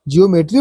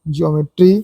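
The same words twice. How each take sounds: First: The e and o vowels run together. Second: The e and o vowels are both heard. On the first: The speaker calls it wrong. "आसान बोलने के लिए हम तो school में पढ़ते थे" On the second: The speaker calls it right. "लेकिन रूल अलग होता है प्रोनाउंस"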